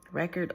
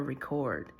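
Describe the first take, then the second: First: "record" as the noun, REK-erd; stress on first syllable. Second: "record" as the verb, ri-CORD; stress on second syllable. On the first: Reader reversing the two readings, "record" stressed on first syllable. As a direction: punch the first syllable of "record", short second. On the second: Reader reversing the two readings, "record" stressed on second syllable. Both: Shown as a demonstration.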